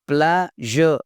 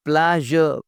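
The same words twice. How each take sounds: The two takes are said the same way.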